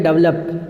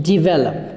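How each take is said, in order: First: डेवलप as dəvləp, vowels swallowed; wrong pronunciation. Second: डेवलप as divelop, di- then -vel-; correct pronunciation. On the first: Teacher mimicking the common wrong Indian form. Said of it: "इतना डेवलप नहीं हुआ". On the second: Teacher giving students the right form of develop. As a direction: say डेवलप as divelop, clear vowels. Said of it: "इसको बोलते हैं डेवलप". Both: Shown as a demonstration.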